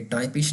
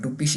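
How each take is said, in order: First: The first vowel sounds like 'eye'. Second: The first vowel sounds like 'oo'. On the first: The speaker calls it wrong. "टाइपिश नहीं पढ़ेंगे इसको" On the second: The speaker calls it right. "इसको हम टुपिश ही पढ़ेंगे"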